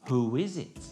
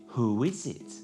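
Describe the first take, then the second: Both takes have the same delivery.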